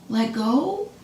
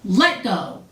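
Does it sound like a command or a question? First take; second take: question; command. First: It is said like a question. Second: It is said as a firm command.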